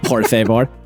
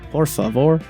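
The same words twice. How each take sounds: First: It is said in a weird robotic voice. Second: It is said in a normal voice.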